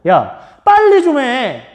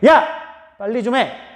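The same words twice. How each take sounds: First: The stress falls on the word 빨리. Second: The stress falls on the opening word 야. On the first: It urges the person to hurry up. "빨리 좀 하라는 거죠. 빨리" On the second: It is aimed at the person who isn't doing it. "그럼 안 하는 너한테, 빨리 안 하는 너한테고"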